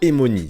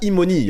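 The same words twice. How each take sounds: First: The name is said without an 'ee' vowel. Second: The name is said with an 'ee' vowel. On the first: The speaker calls it wrong. "et non pas" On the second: The speaker calls it right. "avec le son I"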